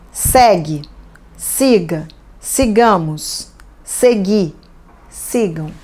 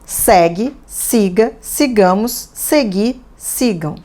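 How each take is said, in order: First: The verb forms are said a bit more slowly. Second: The verb forms are said at normal speed.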